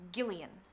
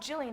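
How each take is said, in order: First: The name begins with a hard G sound. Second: The name begins with a soft J sound. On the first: The speaker calls it right. "with a hard G" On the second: The speaker calls it wrong. "I don't want to be called Jillian anymore"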